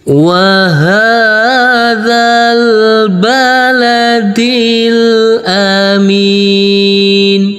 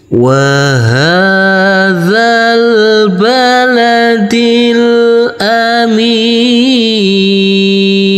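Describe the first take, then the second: First: Flat melody, with the long vowel held briefly. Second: Falling melody, with the long vowel held longest. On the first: "dengan panjang dua harokat. Kita baca dengan irama nada datar" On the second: "dengan panjang enam harokat. Kita kasih irama nada turun"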